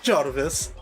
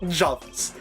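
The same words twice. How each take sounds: First: The name is said with an R sound. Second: The name is said without an R sound. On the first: The speaker calls it wrong. "Not Jarvis" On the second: The speaker calls it right. "J A V I S. Without the dashes"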